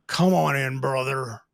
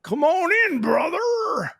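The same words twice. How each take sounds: First: Deep bro greeting. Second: The greeting comes out strangely; odd high brother greeting. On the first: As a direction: greet him like a big bro. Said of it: "You're getting hugged, buddy". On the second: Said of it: "I don't know why that came out that way". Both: Retold or imitated.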